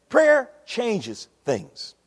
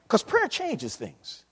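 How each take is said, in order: First: "Prayer changes things" drawn out word by word; very slow, weighty delivery. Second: Slow emphasis. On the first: Preacher drives the point home to the church, very slowly. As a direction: land each word slowly. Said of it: "slower repetition". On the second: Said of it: "slowed emphasis". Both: Real, not acted.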